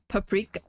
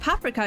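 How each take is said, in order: First: The word is said with English pronunciation. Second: The word is said with German pronunciation. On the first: "That sounds weird" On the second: "It's paprika in German"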